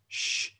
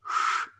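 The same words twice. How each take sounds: First: The sh is lighter, from further forward. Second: The sh is deeper, from further back.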